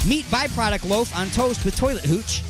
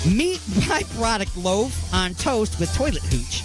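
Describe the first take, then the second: First: The phrase is said quickly. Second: The phrase is said more slowly. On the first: The speaker calls it wrong. "he said that too fast" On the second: The speaker calls it right. "I'll say it again"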